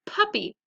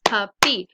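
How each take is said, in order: First: Said in the usual way. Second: "puppy" in two loud beats, PUP, then PY; syllable-by-syllable "puppy"; split into syllables. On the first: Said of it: "So let's practice them". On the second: Shown as a demonstration. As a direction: break "puppy" between its syllables, both punched. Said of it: "two syllables".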